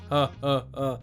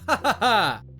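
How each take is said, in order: First: The laugh is flat, with no energy. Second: The laugh is lively, with fire and passion. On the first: The speaker calls it wrong. "there's no laugh. He's ha ha ha. It's like a like an awful Santa" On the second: The speaker calls it right. "a better take would have been ha ha ha. It's with a bit more fire"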